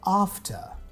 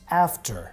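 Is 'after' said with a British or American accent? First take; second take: British; American. First: The A has a broad British 'ah' vowel. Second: The A has a flat American vowel.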